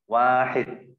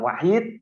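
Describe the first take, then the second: First: The first vowel is long. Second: The first vowel is short. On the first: The speaker calls it right. "wanya panjang" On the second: The speaker calls it wrong. "Bukan wahid"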